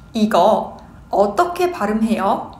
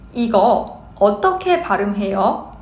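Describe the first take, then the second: The two takes are said the same way.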